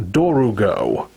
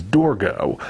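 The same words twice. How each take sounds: First: Dorugo in three syllables, DOR-oo-go; Dorugo, as the dub pronounces it; extra middle syllable. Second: Dorgo in two syllables, DOR-go; Dorgo, just as it is spelled; pronounced as spelled. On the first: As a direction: slip an oo between r and g in Dorugo. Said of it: "they add that extra syllable in the middle". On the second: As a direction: say Dorgo with no vowel between r and g. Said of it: "the official English spelling of the name". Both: Shown as a demonstration.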